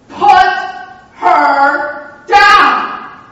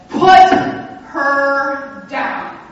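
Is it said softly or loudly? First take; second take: loudly; softly. First: It is said noticeably louder. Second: It is said at a normal, quieter volume.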